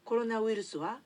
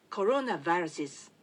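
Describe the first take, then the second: First: Said in the usual way. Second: コロナバイラス with a V sound and English vowels; English pronunciation of corona virus. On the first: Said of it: "英語では". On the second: Shown as a demonstration. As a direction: say コロナバイラス like English, not katakana. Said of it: "と言います". (英語風にコロナバイラス)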